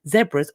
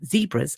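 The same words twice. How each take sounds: First: It is said with a British pronunciation. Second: It is said with an American pronunciation.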